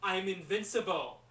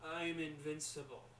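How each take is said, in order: First: Loud, cocky action-movie boast; arrogant movie catchphrase. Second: Slow, understated dying words; shuddered last words. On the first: Actor playing dad as arrogant climber, booming catchphrase. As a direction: belt it out like a cocky film hero. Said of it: "they gave him this catchphrase". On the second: Actor playing dying dad in movie, slow last words. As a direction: say it slowly, with the boast gone out of it. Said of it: "as he shuddered his last words". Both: Acted.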